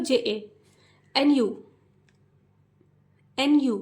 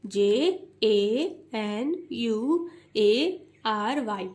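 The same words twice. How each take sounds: First: Letters spoken in chunks; group the underlined letters together; underlined letters run together as one unit; grouped spelling. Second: Slow, even letter-by-letter spelling; each letter spaced out slowly; wrong way, slow. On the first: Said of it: "कैसे पढ़ना है? जे ए, एक साथ". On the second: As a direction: drag out every letter separately. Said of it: "ऐसे नहीं पढ़ना है". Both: Shown as a demonstration.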